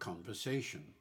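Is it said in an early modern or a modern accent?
modern. It is said in a modern English accent.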